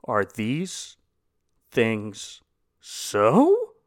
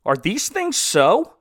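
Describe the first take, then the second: First: Drawn-out pauses, then a squeaky questioning "so?"; a hint of a bewildered Nicodemus asking. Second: Slow, rising question on things; slow quizzical rise on "things"; with inflection. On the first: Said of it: "say it like Nicodemus from the last episode". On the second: Shown as a demonstration. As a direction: lean on THINGS and lift the end. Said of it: "I'll put a, an inflection on it".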